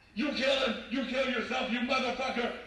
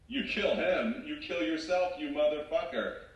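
First: It is yelled loudly. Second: It is said without yelling.

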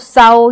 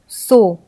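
First: The vowel is a gliding 'ao' sound. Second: The vowel is a plain 'o' sound. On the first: The speaker calls it wrong. "ये नहीं पढ़ेंगे" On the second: The speaker calls it right. "हम इसे ओ के उच्चारण से पढ़ेंगे"

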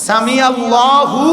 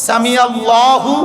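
The two takes are said the same way.

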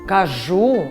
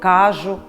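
First: The stress is on the last syllable. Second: The stress is on the first syllable. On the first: The speaker calls it right. "наголошуємо останній склад, а не перший" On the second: The speaker calls it wrong. "Неправильно говорити"

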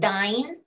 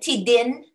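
First: The last syllable has a long 'eye' sound. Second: The last syllable has a short 'i' sound. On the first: The speaker calls it wrong. "Not dine" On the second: The speaker calls it right. "Tidin. Not dine"

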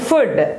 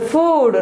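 First: The vowel is short and rhymes with good. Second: The vowel is long and does not rhyme with good. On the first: The speaker calls it wrong. "not food" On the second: The speaker calls it right. "It's a food"

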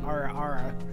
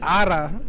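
First: The R is a plain American-style R. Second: The R is rolled. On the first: "I got that American accent" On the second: "you rolled the R's"

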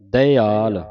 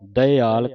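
First: The word is said with separate vowels: da-i-aal. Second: The word is said with separate vowels: da-i-aal.

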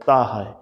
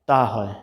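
Both takes have the same delivery.

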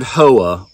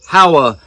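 First: It is pronounced the Japanese way. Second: It is pronounced the anglicized way. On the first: "The Japanese word Howa" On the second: "if you're not Japanese"

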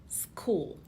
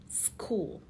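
The two takes are said the same way.

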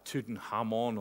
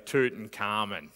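First: It is said the Egyptian way. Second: It is said the Australian way.

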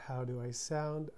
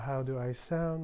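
First: It is recorded at a lower input gain. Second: It is recorded at a higher input gain. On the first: "As of now, I'm using a 5" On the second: "So this is audio gain 6"

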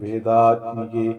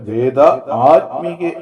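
First: The two parts merge into one word. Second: The two parts are said separately, not merged. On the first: The speaker calls it right. "ഇപ്പൊ ആയ്ക്ക് പ്രാധാന്യം അവിടെ കൊടുക്കണം" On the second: The speaker calls it wrong. "വേദ ആത്മികേ എന്നല്ല"

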